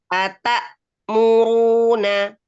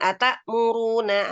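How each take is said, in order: First: There is a short stop after ata. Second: The words run straight together without a stop. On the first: The speaker calls it right. "Ata berhenti dulu, Bun, satu harokat" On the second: The speaker calls it wrong. "jangan langsung"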